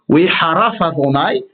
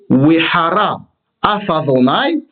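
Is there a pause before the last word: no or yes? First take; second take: no; yes. First: The words run together without any pause. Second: A pause separates the last word from the rest. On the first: God cursed or was cursed. The speaker calls it wrong. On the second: The anger of God flared up. The speaker calls it right.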